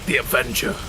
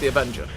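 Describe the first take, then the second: First: It is said in a dramatic, theatrical way. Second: It is said in a flat, casual way. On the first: The speaker calls it right. "It's got to be dramatic" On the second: The speaker calls it wrong. "You can't just be like"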